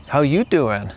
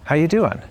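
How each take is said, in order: First: Playful, flirty "How you doing"; a lightly joking greeting; flirtatious. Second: Sincere, serious "How you doing"; mean it; asked with honest concern. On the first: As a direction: tease it a little. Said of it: "A little flirtatious or funny or joking". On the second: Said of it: "And it can also be serious". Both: Shown as a demonstration.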